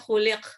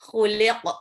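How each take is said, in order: First: The final q stops flat with no echo. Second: The final q is released with a short echo. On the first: The speaker calls it wrong. "cuman khuliq ... jadinya kayak kaf" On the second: The speaker calls it right. "pantulinnya ke ke ya. Jadi khuliq gitu"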